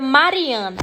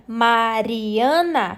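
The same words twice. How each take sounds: First: Said in the usual way. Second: Mariana slowly split into Ma-ri-a-na; syllable by syllable. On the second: Shown as a demonstration. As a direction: break Mariana into drawn-out syllables. (Mariana sílaba por sílaba, bem devagar) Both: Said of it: "Separar os pedacinhos da palavra".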